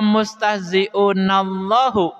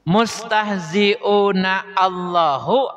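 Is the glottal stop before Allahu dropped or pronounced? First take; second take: dropped; pronounced. First: The words run together with no glottal stop. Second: A glottal stop is heard before Allahu. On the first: The speaker calls it right. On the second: The speaker calls it wrong.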